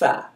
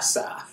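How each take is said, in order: First: It begins with a th sound between the teeth. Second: It begins with a hissing s sound. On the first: "It's alif ba ta tha" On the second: "So some people say alif ba ta sa"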